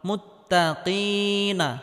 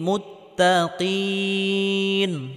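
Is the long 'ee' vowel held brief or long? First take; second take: brief; long. First: The ee vowel is held briefly before final na. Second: The ee vowel is stretched long before stopping. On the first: The reading continues without stopping. "একালি পরিমাণ লম্বা করে টেনে পড়তে হবে" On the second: The reading stops at this word. "যদি ওয়াকফ করা হয় তাহলে তিন আলাই পরিমাণ লম্বা করে টেনে পড়তে হবে"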